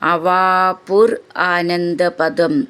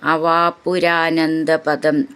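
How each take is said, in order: First: The words are said separately, without merging. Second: The words are merged into one word.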